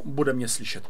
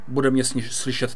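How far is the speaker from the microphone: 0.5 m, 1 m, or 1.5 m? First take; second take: 1 m; 0.5 m. First: The voice is recorded about one meter away. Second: The voice is recorded about half a meter away. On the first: "Když se posunu metr od mikrofonu" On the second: "Když se posunu asi půl metru daleko od mikrofonu"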